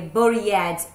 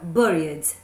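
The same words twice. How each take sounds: First: The ending is said as an extra syllable. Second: The ending is only a plain D sound. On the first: The speaker calls it wrong. "Eu não vou pronunciar aquele E" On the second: The speaker calls it right. "Com o D no final mesmo"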